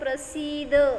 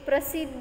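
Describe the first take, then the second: First: The vowel after the s is long. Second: The vowel after the s is short. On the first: The speaker calls it right. "सला दीर्घ आहे ना, त्यामुळं त्याला कसं म्हणायचं?" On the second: The speaker calls it wrong. "ते प्रसिद्ध म्हणायचं नाही"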